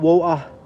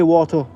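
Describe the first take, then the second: First: The T sound is dropped. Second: The T sound is clearly pronounced. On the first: "not water" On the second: "we actually can say water with a T"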